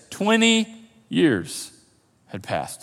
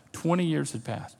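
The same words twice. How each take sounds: First: Twenty, pause, years, pause, had passed, dropping soft at the end; dramatic pauses. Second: Said in the usual way. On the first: Shown as a demonstration. Preacher building suspense for the congregation, slow with pauses. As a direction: space out "twenty years had passed" with long pauses, last words falling away. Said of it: "get this". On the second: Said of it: "This is important".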